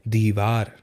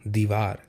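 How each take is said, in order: The two takes are said the same way.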